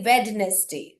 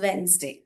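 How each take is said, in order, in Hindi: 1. अक्षर D साफ़ तौर पर उच्चारित होता है। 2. अक्षर D उच्चारित नहीं होता। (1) "we do not say Wednesday" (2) "it is pronounced as Wednesday"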